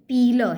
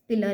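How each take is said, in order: First: The first vowel is long, like 'peel'. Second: The first vowel is short, like 'pill'. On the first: The speaker calls it right. "पीलर है, ये पील करना छीलना" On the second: The speaker calls it wrong. "पिलर नहीं"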